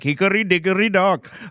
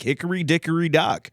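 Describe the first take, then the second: First: It is spoken in an Indian accent. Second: It is spoken in an American accent. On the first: "if we can do the Indian accent" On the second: "like American English accent"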